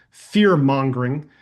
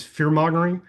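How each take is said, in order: First: Fear-mongering repeated slower and louder, pitch dropping; emphatic repeat. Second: Said in the usual way. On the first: Shown as a demonstration. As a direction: lean hard on fear-mongering the second time, drawn out. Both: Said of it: "I never mean for that to come across as fear-mongering".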